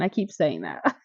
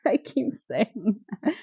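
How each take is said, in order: First: Said in the usual way. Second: Slower, said through a laugh; laughing repeat. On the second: Real, not acted.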